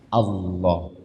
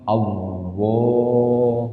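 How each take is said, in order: First: The word is said without a 'w' sound. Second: The word is said with a 'w' sound. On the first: The speaker calls it right. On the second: The speaker calls it wrong.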